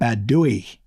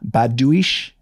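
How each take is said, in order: First: The name ends without an 'sh' sound. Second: The name ends with an 'sh' sound.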